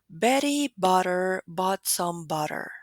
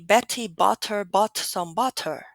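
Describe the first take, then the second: First: The middle T sounds are quick flaps. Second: The middle T sounds are fully aspirated. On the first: The speaker calls it right. "in American English, these lines are produced differently" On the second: The speaker calls it wrong. "not all of them are actually aspirated. We don't really say"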